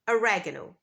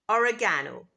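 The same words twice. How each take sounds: First: The stress falls on a different syllable. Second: The stress falls on the third syllable.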